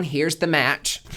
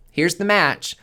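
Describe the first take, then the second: First: Pitched up, slow, each word laid down; slow deliberate offer. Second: Higher, louder, slow, laughing through it; laughing repeat. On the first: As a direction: hand over the match slowly. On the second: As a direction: offer it again with a laugh. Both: Acted. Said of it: "The universe is being like".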